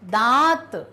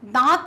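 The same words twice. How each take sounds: First: The nasal vowel is drawn out a little. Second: The nasal vowel is short and quick. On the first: The speaker calls it right. "खींच कर बोलना है थोड़ा" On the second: The speaker calls it wrong. "दांत नहीं"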